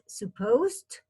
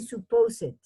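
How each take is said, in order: First: The ending is not said as a syllable. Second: The ending is said as an extra syllable. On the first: The speaker calls it right. "It's supposed" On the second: The speaker calls it wrong. "don't say suppose it"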